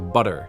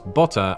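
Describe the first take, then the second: First: The middle consonant is a soft D-like flap. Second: The middle consonant is a clear T sound.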